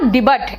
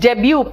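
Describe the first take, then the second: First: The final t sound is pronounced. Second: The final t sound is silent. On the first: The speaker calls it wrong. "It is not डिबट" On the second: The speaker calls it right. "It is डेब्यू"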